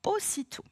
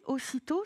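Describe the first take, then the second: First: Aussitôt said high with a clear falling finish; word said as a model. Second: Said in the usual way. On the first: Shown as a demonstration. Teacher rounds off the spelling by saying Aussitôt high and falling. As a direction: announce Aussitôt high, then let it fall.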